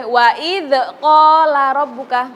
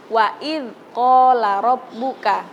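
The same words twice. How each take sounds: First: "wa idz qala rabbuka" slow, the dzal bounced like qalqalah; the bouncing mistake; bouncing wrong reading. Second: "wa idz qala rabbuka" slow, dzal held smooth without bounce; the clean correct way; correct reading. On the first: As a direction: demonstrate the wrong echoing dzal. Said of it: "nggak boleh memantul". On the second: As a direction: recite it plainly, no echo. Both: Shown as a demonstration.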